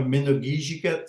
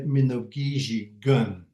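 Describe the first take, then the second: First: Minogijigat, last syllable said "gat"; -gat ending. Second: Minogijigun, last syllable said "gun"; -gun ending. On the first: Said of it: "The ending of Minogijigat". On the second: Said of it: "some people say Minogijigun". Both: Shown as a demonstration.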